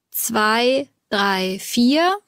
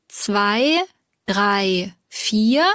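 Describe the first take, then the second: No difference in how they are said.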